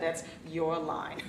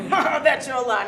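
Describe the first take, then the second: First: Your leaned on, slow and softer; stress on Your. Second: Said in the usual way. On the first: Retold or imitated. Daughter insisting to her father that Your line is his, stressing Your. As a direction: punch the word Your.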